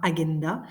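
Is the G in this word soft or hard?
hard. The G is hard, as in go. "en latin, on prononce toutes les lettres"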